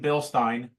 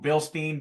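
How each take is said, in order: First: The second syllable is said like 'stine'. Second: The second syllable is said like 'steen'.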